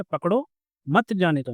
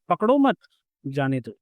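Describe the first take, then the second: First: Slow, break after "पकड़ो", then "मत जाने दो" together; comma after पकड़ो. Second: Group "पकड़ो मत", then let "जाने दो" drop; comma after मत. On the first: Teacher showing students what a comma changes, pause after "पकड़ो". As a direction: join "मत" to "जाने दो", not to "पकड़ो". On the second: Teacher contrasting the second meaning, clear pause after "मत". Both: Shown as a demonstration. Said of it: "comma से कितना फर्क बदल जाता है देखो".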